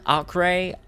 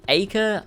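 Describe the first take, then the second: First: Acre said ARK-ray; high, questioning ARK-ray for Acre; pronunciation option. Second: Acre said AY-kuh; high, questioning AY-kuh for Acre; pronunciation option. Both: Shown as a demonstration. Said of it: "How do you pronounce acre or acre".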